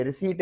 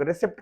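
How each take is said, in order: First: रिसीट with long "ee", no P; silent P. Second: रिसिप्ट with P sounded before T; common mispronunciation. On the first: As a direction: say रिसीट as "ri-seet". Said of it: "please इसको रिसिप्ट ना कहें". (रिसीट में पी silent) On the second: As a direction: say रिसिप्ट as "ri-sipt". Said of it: "जिसको लोग रिसिप्ट कहते हैं". (रिसिप्ट में पी की आवाज़) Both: Shown as a demonstration.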